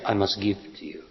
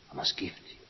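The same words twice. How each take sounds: First: Said in the usual way. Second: A hushed inner vow; whispered. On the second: Retold or imitated. Speaker whispering the man's vow to the woman. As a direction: whisper it, almost breathless.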